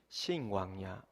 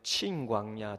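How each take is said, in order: First: The word begins with an 's' sound. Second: The word begins with a 'ch' sound. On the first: "우리 흔히 신광야" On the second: "정확한 발음은 친광야라고 했던"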